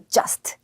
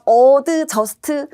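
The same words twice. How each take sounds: First: The first vowel is said small and weak. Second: The first vowel is said fully and strongly. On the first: The speaker calls it right. "A 발음 살짝 작게 하고" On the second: The speaker calls it wrong. "아니야 아니야"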